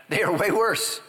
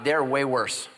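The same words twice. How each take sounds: First: "worse" said higher and louder, drawn out; stress on worse. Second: Said in the usual way. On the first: Shown as a demonstration. Preacher to listeners, leaning on worse. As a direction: lean on the word worse.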